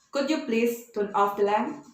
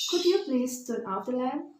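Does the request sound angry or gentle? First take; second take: angry; gentle. First: The request is said in an angry tone. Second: The request is said in a soft tone. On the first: The speaker is annoyed and demanding. "bukan polite request ya, tapi angry request" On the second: The speaker is asking politely. "dengan baik, dengan halus"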